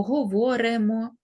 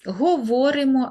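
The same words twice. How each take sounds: First: "говоримо" altered to го-во-ре-мо; E in the ending. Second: "Говоримо" with a clear и after р; Y in the ending. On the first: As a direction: say "говоримо" with е after р instead of и. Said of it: "або". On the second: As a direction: pronounce "Говоримо" carefully as го-во-ри-мо. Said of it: "ми ставимо букву «и»". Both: Shown as a demonstration.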